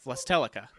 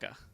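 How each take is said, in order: First: The name begins with a V sound. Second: The name begins with an L sound.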